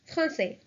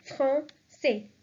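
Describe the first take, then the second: First: Said in the usual way. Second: "français" split in two, fran-SAY, ç as S; syllable by syllable. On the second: Shown as a demonstration. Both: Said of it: "so the pronunciation will be".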